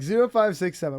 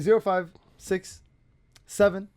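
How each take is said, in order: First: It is said smoothly without a pause. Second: It is said with a deliberate pause.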